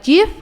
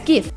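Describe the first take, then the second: First: It begins with a soft J sound. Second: It begins with a hard G sound. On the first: The speaker calls it wrong. "What's Jiffy? Like GIF?" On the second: The speaker calls it right. "It's GIF"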